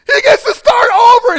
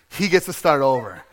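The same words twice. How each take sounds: First: High, very loud joyful wail; hammed-up blubbering with joy; mock bawling. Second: Said in the usual way. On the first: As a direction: cry it out at full volume, overwhelmed. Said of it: "So I'm bawling at this part".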